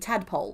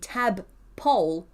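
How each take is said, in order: First: The two words blend into 'tadpole'. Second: The two words are said clearly apart. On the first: The speaker calls it wrong. "into the community tadpole" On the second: The speaker calls it right. "from the community tab poll"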